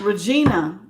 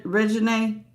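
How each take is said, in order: First: "Regina" said re-JEE-nuh with a hard J; "Regina" as ruh-JEE-nuh; "Regina" ending in an open -nuh; Regina pronounced. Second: "Regine" said ruh-zhuh-NAY, ending in NAY; "Regine" as ri-juh-NAY; Regine pronounced. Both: Shown as a demonstration. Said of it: "I don't know if it's Regina or Regine".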